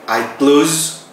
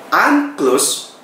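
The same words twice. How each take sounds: First: "close" said with a buzzing z, /kloz/; "I close" ending in z, the verb; close as shut. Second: "I'm close" with the s hissed, meaning near. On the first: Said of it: "itu saya menutup". ("close" diucapkan dengan bunyi z, /kloz/) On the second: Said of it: "itu artinya saya dekat". ("close" diucapkan dengan bunyi s, /klos/) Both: Shown as a demonstration.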